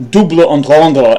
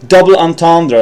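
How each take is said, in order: First: "double entendre" said the French way, like "doobla on-tondra"; French-style pronunciation. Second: Said in the usual way. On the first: Shown as a demonstration. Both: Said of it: "as my dictionary says".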